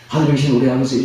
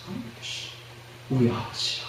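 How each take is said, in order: First: The phrase is said quickly, rushed through. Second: The phrase is said slowly, with lingering pauses. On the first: The prayer is recited mechanically, out of habit. The speaker calls it wrong. "빨리 하면 안 됩니다" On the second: The prayer is said thoughtfully, with feeling. The speaker calls it right. "천천히 뜸을 들이면서"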